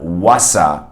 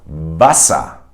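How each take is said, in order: First: Wasser with a rounded English W; Wasser, lips rounded W. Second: Wasser with a V, lower lip on upper teeth; Wasser, V sound; German W as V. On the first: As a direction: say Wasser starting woo. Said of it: "as you would say in English". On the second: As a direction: say Wasser starting vah. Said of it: "bite your lower lip". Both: Shown as a demonstration.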